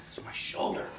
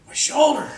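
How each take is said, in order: First: Hushed mock-feeble voice; weak, spent reply. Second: High, louder mock complaint; pained retold cry. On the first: Storyteller voices exhausted man answering the doctor, faint whisper. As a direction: barely get the words out. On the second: Storyteller voices injured man insisting to doctor, high pained cry.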